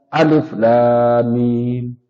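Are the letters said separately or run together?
run together. The letters are run together without breaks. The speaker calls it wrong.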